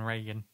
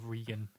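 First: The name is said with an American pronunciation. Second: The name is said with an Irish pronunciation. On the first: "rather than Reagan" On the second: "the Irish pronunciation of Reagan"

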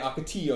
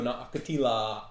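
First: The double L is said like a Y. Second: The double L is said like an L. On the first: This is the local, Spanish-style way. The speaker calls it right. "we say Ocotillo" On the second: This is the way locals do not say it. The speaker calls it wrong.

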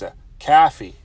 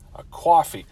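First: It is said in a Chicago accent. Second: It is said in a New York accent.

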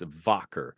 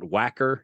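First: The word begins with a V sound. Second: The word begins with a W sound. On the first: The speaker calls it right. "W's are pronounced like V's in German" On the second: The speaker calls it wrong. "So it's not Wacker"

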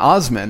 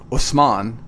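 First: The name is said the anglicized, American way. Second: The name is said the original, native way. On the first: This is the easy version others can say. The speaker calls it wrong. "I'm saying it for your listening pleasure" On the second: This is how family members say it. The speaker calls it right. "the correct way to pronounce my name is Usman"

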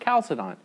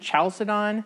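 First: The word begins with a k sound. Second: The word begins with a ch sound. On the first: "they say it's pronounced" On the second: "I always pronounce it"

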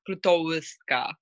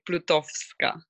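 First: The w is said like an English w. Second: The w is said like a v. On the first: The speaker calls it wrong. "You didn't say like Plutowska" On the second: The speaker calls it right. "it's like V, exactly. So it's like Plutowska"

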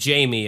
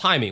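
First: The name is said the English way, like 'Jamie'. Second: The name is said the Spanish way, like 'High-meh'. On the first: "we would pronounce his name Jamie" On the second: "with Spanish it's pronounced Jaime"

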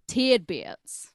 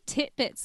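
First: It is said the American way, like tidbits. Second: It is said the British way, like titbits.

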